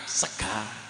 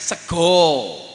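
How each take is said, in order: First: It ends in an a vowel, Ngapak style. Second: It ends in an o vowel, Jogja style.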